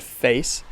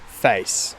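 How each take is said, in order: First: "face" with the vowel starting on "eh"; "face" the American way, eh-to-ee glide. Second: "face" with a wide vowel, near "fice"; "face" the broad Australian way. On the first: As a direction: say "face" as "feh-ees". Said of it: "instead of the word face". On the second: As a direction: say "face" slowly as "fa-ees". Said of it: "you get face". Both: Shown as a demonstration.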